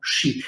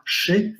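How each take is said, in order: First: "shi" with a soft, palatal sh; soft Old Polish sz. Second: Said in the usual way. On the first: Shown as a demonstration. Lecturer shows students the old sound, softened "shi". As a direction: say "shi" with the consonant softened before i. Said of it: "w dawnej polszczyźnie była miękka". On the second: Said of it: "ta głoska szy w dawnej polszczyźnie była miękka".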